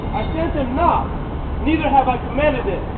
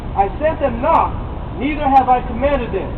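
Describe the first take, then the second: Both takes have the same delivery.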